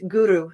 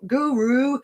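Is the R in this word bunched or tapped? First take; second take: tapped; bunched. First: The R is a quick tongue tap behind teeth. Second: The R is a bunched, puckered American-style R. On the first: The speaker calls it right. "We flick the tongue right behind the teeth" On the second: The speaker calls it wrong. "we don't say gur, guru, ... we don't pucker and use the the sides here on the the R"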